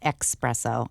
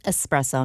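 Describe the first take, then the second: First: The first syllable is said with a ks sound. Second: The first syllable is said with a plain s sound. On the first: The speaker calls it wrong. "not espresso ... you're exactly wrong" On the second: The speaker calls it right. "which is espresso"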